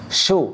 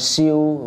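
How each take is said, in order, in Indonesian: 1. Bunyi sh langsung masuk ke vokal. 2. Bunyi y terdengar sebelum vokal. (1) "Shu langsung" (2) "bukan siu"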